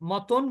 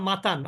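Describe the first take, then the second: First: It is said with Bengali vowels, as motón. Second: It is said with Arabic vowels, as matan.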